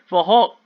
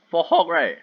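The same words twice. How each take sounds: First: Laughing retake after the crack. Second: Voice crack. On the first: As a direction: say it again, laughing at yourself. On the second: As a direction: voice cracking on Hulk. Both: Real, not acted. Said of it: "Oh my god, voice crack".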